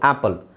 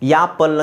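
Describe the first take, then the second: First: The word begins with a plain vowel. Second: The word begins with a y sound. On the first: The speaker calls it right. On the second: The speaker calls it wrong.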